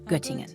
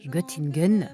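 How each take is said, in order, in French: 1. Il se prononce avec un accent allemand. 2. Il se prononce avec un accent français. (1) "au lieu de" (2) "ce petit accent français"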